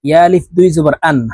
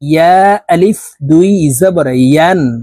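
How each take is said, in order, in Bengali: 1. শেষ সিলেবলটি হামযাহ দিয়ে শুরু হয়। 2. শেষ সিলেবলটি ইয় ধ্বনি দিয়ে শুরু হয়। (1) "হামজার উচ্চারণ করে থাকি হামজার উচ্চারণ করলে ইয়ার উচ্চারণ সঠিকভাবে হবে না" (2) "পড়তে হবে এইভাবে দেখুন জিহ্বার মধ্যখান থেকে"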